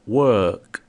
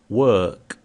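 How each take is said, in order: No difference in how they are said.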